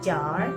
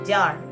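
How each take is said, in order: First: The vowel is said long. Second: The vowel is said short. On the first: The speaker calls it right. "tapi sedikit panjang" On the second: The speaker calls it wrong. "tidak menyebutkan"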